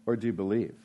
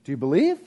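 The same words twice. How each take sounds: First: "Or do you believe?" lower and softer, falling; second take of "believe", solemn; weighty question. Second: Plain lightly rising "Do you believe?"; first take of "believe", offhand; casual question. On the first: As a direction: drop the voice on "Or do you believe?" to mean it. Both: Shown as a demonstration. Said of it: "the difference in believing".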